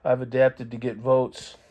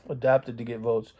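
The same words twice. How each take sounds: First: "adapted" with a short a, as a slip; adapted, misspoken. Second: "adopted" with a clear o, correcting the slip; self-correction landing on "adopted"; corrected to adopted. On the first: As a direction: say "adapted" plainly, then catch yourself. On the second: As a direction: fix it to "adopted", slightly lower. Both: Real, not acted.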